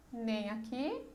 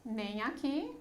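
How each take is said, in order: Both takes have the same delivery.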